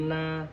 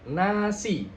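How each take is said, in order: First: NA- hummed through closed lips, like an M; softly muffle NA- with the mouth shut; mouth not opened. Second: NASI with a fully opened "na"; mouth opened clearly. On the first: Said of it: "kalau mulutnya nggak dibuka bakal seperti M". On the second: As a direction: open the mouth right after the N in NASI. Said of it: "jadi mulutnya harus dibuka". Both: Shown as a demonstration.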